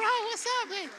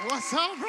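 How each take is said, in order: First: Much higher, loud hype greeting; louder hype greeting. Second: Loud greeting. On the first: Preacher re-greeting the teen, higher and louder. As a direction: crank the greeting way up. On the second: Preacher greeting a teen on stage, loud and hyped. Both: Real, not acted.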